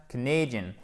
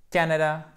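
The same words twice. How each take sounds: First: "Canadian" stressed on "NAY", falling; second-syllable stress. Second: "Canada" stressed on "CAN", short A; first-syllable stress. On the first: Teacher contrasting two words, "Canadian" stressed on second syllable. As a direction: reduce "Ca", hit "na" as "nay" in "Canadian". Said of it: "Accent tonique sur la deuxième syllabe". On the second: Teacher contrasting two words, "Canada" stressed on first syllable. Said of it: "accent tonique sur la première syllabe". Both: Shown as a demonstration.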